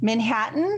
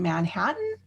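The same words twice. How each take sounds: First: It is said in a New York accent. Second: It is said in the speaker's plain accent.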